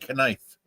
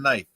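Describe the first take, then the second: First: The word starts with a pronounced K sound. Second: The word starts with a silent K. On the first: The speaker calls it wrong. "you don't say knife" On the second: The speaker calls it right. "kind of like the K in knife"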